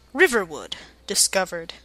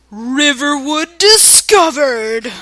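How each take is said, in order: First: Said in the usual way. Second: Loud, slow, drawn-out announcement; booming sky voice. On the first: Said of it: "No, let me redo that". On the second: Shown as a demonstration. Voice from the sky announces the town, booming. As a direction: boom it out from the heavens. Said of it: "boomed a voice from the sky".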